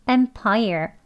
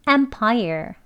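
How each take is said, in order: No difference in how they are said.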